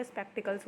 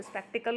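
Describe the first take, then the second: First: स्पेक्टिकल्स with s after the l; correct plural form. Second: स्पेक्टिकल ending on l, no final s; wrong singular form. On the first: Teacher gives students the plural, स्पेक्टिकल्स with final s. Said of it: "स्पेक्टिकल्स होता है". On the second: Teacher rejects the singular for students, स्पेक्टिकल without final s. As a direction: drop the s from स्पेक्टिकल. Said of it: "स्पेक्टिकल नहीं होता". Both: Shown as a demonstration.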